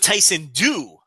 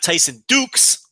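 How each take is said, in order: First: The surname sounds like duke, with no final s. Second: The surname sounds like the word dukes. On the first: "Silent X" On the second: "like the old wrestler Derek Dukes"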